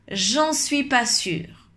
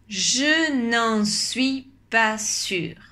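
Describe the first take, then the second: First: The 'ne' is dropped, said more quickly. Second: The negative 'ne' is fully pronounced.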